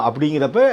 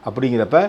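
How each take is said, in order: No difference in how they are said.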